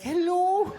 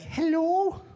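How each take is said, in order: First: High, louder sing-song Scottish granny hello; hammed-up Mrs Doubtfire hello. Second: High, louder sing-song Scottish granny hello; mock Mrs Doubtfire hello. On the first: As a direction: trill a rising hello like an old Scottish lady. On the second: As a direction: answer the phone like a sweet old Scottish lady. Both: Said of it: "my mom sounds like Missus Doubtfire".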